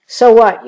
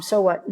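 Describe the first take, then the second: First: "So what?" thrown out loud and sharp; punchy rhetorical question. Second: Said in the usual way. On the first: Real, not acted. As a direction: hit "So what?" hard, like a challenge. Rhetorical challenge about praying Psalms.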